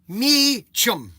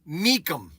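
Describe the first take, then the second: First: The middle consonant is a ch sound. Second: The middle consonant is a k sound. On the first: "you could say Meachum" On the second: "I'm going to tell you how I would spell it"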